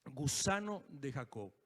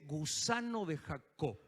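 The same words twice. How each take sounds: First: Softer and lower, drawn out; hushed slow echo. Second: Slow, low, weighty words; solemn slow quote. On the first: Preacher repeats God's word to himself, hushed and slow. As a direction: let it sink in almost under the breath. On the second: Preacher quotes Isaiah to the congregation, slow and solemn. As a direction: let the name land slowly and heavily. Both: Shown as a demonstration. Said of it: "Dios me habló de esa palabra".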